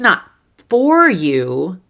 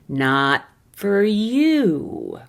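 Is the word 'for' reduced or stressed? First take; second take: stressed; reduced. First: 'For' is said in full and stressed. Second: 'For' is reduced to a weak 'fur'. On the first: "you can choose to stress the word for" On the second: "the reduced version instead of for"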